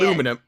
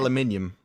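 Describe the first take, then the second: First: It has four syllables, ending in -num. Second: It has five syllables, ending in -nium. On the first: This is how Americans say it. "Americans say" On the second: This is how UK people say it. "We say"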